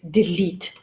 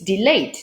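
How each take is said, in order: First: The second syllable sounds like 'leet'. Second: The second syllable sounds like 'late'. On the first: The speaker calls it right. "Well, it's not, it's delete" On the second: The speaker calls it wrong. "many Polish students constantly say delate"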